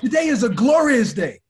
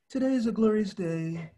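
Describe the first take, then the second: First: It is said loudly, with lively energy. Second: It is said flatly, without energy.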